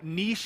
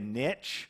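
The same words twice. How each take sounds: First: Niche is pronounced the British way. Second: Niche is pronounced the American way. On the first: "he was over in London sharing. And, you know, niche is actually how you say it" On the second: "But here in America, we say niche"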